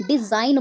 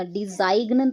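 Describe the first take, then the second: First: डिजाइन said with a silent g, di-zain; the right way, डिजाइन rhyming with line and no g; correct pronunciation. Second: डिजाइन said with the g sounded, di-zaig-n; the wrong way, डिजाइन with a hard g before the n; wrong pronunciation. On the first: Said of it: "डिजाइन बोल रहे हैं". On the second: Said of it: "डिजाइन तो नहीं बोल रहे हैं ना". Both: Shown as a demonstration.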